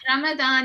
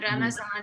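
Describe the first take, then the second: First: The middle consonant is a d sound. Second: The middle consonant is a z sound. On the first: This is the form closer to Arabic. "Ramadan is closer to the Arabic pronunciation" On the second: This is the form Persian speakers use. "Ramazan mm. is how Persians say Ramadan"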